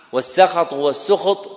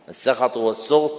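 First: السخط said twice, first with a fatha on the seen, then with a damma; teacher sounds out والسخط both ways, raised and clear; both vowelings of sakhat. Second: السخط said twice, repeated calmly, with a fatha on the seen and then a damma; teacher repeats السخط والسخط as a dictation; both vowelings of sakhat. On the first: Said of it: "بفتح السين وضمها لغتان صحيحتان". (السخط بفتح السين ثم بضمها) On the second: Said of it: "بضم السين وفتحها لغتان صحيحتان". (السخط بضم السين وفتحها بهدوء) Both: Shown as a demonstration.

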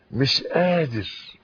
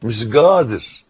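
First: Said in the usual way. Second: قادر said with a hard g, "gadir", in Saidi Arabic; Upper Egyptian accent. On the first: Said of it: "خلاص". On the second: Shown as a demonstration. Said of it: "بالصعيدي،". (بلهجة صعيدية: "مش گادر")

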